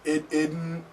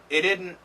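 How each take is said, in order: First: It is said slowly, each part spelled out. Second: It is said quickly, with the T dropped. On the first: The speaker calls it wrong. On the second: The speaker calls it right.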